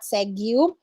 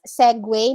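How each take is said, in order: First: The word ends with an 'oo' sound. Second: The word ends with a 'way' sound. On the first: The speaker calls it wrong. "not segu" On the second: The speaker calls it right. "so it's segue"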